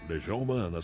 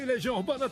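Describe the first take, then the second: First: It is said calmly and smoothly. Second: It is said loudly and excitedly.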